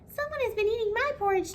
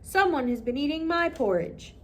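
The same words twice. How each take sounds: First: The voice is high, thin and squeaky. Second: The voice is loud, deep and booming. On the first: "Baby Bear cried with his squeaky little voice" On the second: "he cried in his big booming voice"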